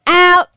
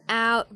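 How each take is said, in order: First: It is said very loudly. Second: It is said at normal volume.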